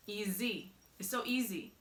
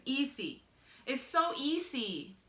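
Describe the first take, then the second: First: "easy" with a Z, ee-zee; Z sound in easy. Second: Higher "easy" with an S, ee-see; accented S in easy. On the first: Vlogger returns to the usual word, easy with a Z. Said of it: "saying easy with a Z". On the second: Vlogger mocks how the spelling sounds, easy with an S. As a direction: put an S, not Z, in "easy". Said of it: "like I'm saying it with an accent". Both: Shown as a demonstration.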